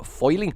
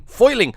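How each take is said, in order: First: Said in the usual way. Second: Bad New York accent, punched louder; half-hearted New York accent, higher pitched. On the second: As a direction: put on a rough New Yorker accent. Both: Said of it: "I don't know why I got New Yorker".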